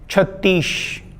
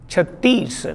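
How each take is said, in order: First: The word ends with an sh sound. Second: The word ends with an s sound. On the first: The speaker calls it wrong. "he said pantish, chhattish" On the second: The speaker calls it right. "the other was chattis"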